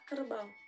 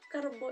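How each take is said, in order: First: The word ends in an au diphthong. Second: The word ends in a plain o vowel. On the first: The speaker calls it right. "yang benar itu adalah kerbau" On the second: The speaker calls it wrong. "kerbo itu salah"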